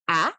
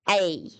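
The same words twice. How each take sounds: First: It is said as a short vowel sound. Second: It is said as the letter's full name. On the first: "the phonic A, which we say A" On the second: "but the actual letter A"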